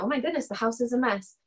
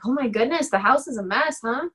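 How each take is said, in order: First: Flat, softer, falling delivery; matter-of-fact falling remark; flat statement. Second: Light, rising, offhand comment; casual remark. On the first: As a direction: state it plainly, no edge, falling at the end. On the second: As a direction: toss it off innocently with a rising end. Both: Retold or imitated. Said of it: "they say it exactly like that".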